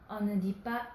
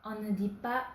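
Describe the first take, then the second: The two takes are said the same way.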